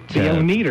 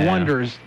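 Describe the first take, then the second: First: The name sounds like one plus eaters. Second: The name sounds like the word wonders. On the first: "someone in the movie goes, pronounces it... Phonetically" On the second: "The Wonders, spelled O-N-E-D-E-R-S"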